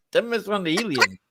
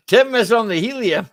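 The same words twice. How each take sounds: First: Said in the usual way. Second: Laughing through the words. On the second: Real, not acted. Teasing Tim about his squeaky voice, laughing. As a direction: giggles while teasing Tim.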